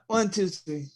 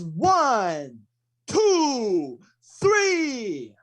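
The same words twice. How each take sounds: First: The numbers are said sloppily, without clear enunciation. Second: Each number is said clearly and distinctly. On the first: The speaker calls it wrong. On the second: The speaker calls it right. "they really need to enunciate the count. It is"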